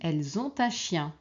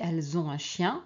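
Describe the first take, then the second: First: Ont links to un with a t sound. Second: Ont and un are said with no t link. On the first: "Comme on peut la faire aussi" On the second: "on peut ne pas la faire"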